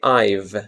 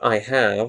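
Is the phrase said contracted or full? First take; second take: contracted; full. First: It is said as one short contracted syllable. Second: It is said as two full separate words. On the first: The speaker calls it right. "When we speak, we say I've" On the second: The speaker calls it wrong. "not I have"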